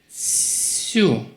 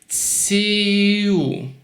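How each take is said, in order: First: The syllable is said quickly. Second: The syllable is said slowly. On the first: "when you do it faster" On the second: "You can practice like this"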